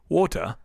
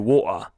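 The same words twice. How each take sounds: First: It is said in a posh British accent. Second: It is said in a Cockney accent. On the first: The speaker sounds refined and classy. The speaker calls it right. "you're nice and fancy" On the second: The speaker sounds common and uncouth. The speaker calls it wrong. "you're disgusting"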